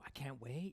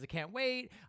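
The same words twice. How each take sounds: First: It is said in a calm, understated way. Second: It is said in an excited, expressive way.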